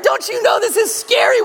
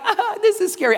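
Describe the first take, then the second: First: A high, full-voiced child's scream of accusation; screaming kid. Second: Mild mock scare. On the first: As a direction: shout "Don't you know this is scary?" as a terrified child. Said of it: "they are screaming". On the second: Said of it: "I don't mean like".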